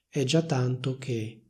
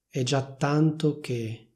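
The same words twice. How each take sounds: First: The t of tanto is short, single. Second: The t of tanto is held long, doubled. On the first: "non raddoppiano la T e dicono" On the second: "Se vuoi puoi raddoppiare la T di tanto e dire"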